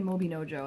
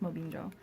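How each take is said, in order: First: The name has an extra sound added in the middle. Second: The name is said without the extra middle sound. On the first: The speaker calls it wrong. "I always want to say Mobinojo, and I think I'm adding letters to it" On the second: The speaker calls it right. "I think it's Mobinjo"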